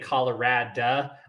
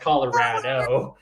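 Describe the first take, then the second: First: The word ends with an 'ah' sound. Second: The word ends with an 'oh' sound. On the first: The speaker calls it wrong. "She would say Colorado. I was like, but Colorado doesn't have an A at the end of it" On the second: The speaker calls it right. "It's pronounced Colorado"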